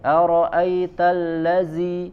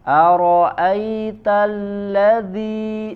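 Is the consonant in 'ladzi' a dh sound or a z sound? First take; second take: z; dh. First: The consonant is a hissing z sound. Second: The consonant is a soft dh sound. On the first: The speaker calls it wrong. "sering dibaca seperti huruf zai" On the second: The speaker calls it right. "ujung lidah ditempelkan ke gigi seri bagian atas"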